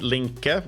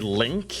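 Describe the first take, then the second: First: The name ends with an added vowel sound. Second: The name ends on the k sound. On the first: The speaker says it this way. "I'm more used to have that E sound" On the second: Other people say it this way. "some people that just say Link"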